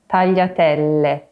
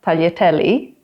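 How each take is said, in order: First: The final vowel sounds like 'eh'. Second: The final vowel sounds like 'ee'. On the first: The speaker calls it right. "but tagliatelle" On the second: The speaker calls it wrong. "it's not tagliatelli"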